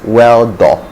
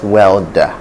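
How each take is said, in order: First: The word ends in a full 'o' vowel. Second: The word ends in a weak 'er' vowel. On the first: The speaker calls it wrong. "somebody in Nigeria, the person is likely to pronounce it as weldo" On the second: The speaker calls it right. "not welder"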